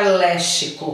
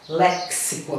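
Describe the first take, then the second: First: The x sounds like 'sh', as in lixo. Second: The x sounds like 'ks', with a k sound. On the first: The speaker calls it wrong. "eu não vou falar léxico, como eu falo em lixo" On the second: The speaker calls it right. "Essa palavra eu vou falar léxico. Tem um casinho aqui antes no som dela"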